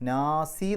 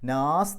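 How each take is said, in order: First: The word ends with a short i vowel. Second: The word ends on the final s consonant. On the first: The speaker calls it wrong. "നാസി എന്ന് പറഞ്ഞിട്ടല്ല നിർത്തുക" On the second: The speaker calls it right. "നാസ് എന്ന് പറഞ്ഞിട്ടാണ് നിർത്തുക"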